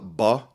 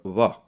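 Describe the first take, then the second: First: The lips close fully, stopping the air. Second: The lips nearly close, letting air hiss through. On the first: "bilabial stop" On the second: "bilabial fricative"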